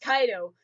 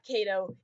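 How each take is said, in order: First: The first syllable has an 'ai' vowel glide. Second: The first syllable has a plain 'a' vowel. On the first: The speaker calls it right. "it's Kaido" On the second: The speaker calls it wrong. "even though I know it's not Kato"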